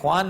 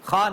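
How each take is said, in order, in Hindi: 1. यह kh से शुरू होता है, उसके बाद w की आवाज़ आती है। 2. यह kh से शुरू होता है और इसमें w की आवाज़ नहीं है। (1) "ये ख्वान नहीं है" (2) "खान है"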